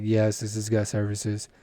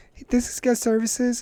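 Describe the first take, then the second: First: Low, slow, unenthused phone answer; imitated store clerk. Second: High-pitched questioning caller; imitated caller. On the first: Acts out own clerk answer. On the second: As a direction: ask it high, like a customer on the phone. Acts out caller phoning the store.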